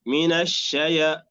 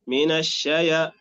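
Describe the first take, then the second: The two takes are said the same way.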